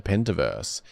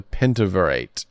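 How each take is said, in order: First: Pentaverse said by mistake for Pentaverate; Pentaverse, a slip on the name; Pentaverse, said wrong with a -verse ending; misread name. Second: Pentaverate said carefully as PEN-ta-ver-ate; Pentaverate, fixing the slip with a -verate ending; Pentaverate, the corrected name. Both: Real, not acted. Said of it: "oh, I said Pentaverse".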